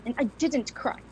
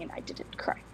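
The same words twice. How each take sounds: First: Said in the usual way. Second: Whispered refrain, barely voiced; hushed stubborn whisper. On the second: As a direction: let it fall to a whisper. Grandmother repeats defiant refrain.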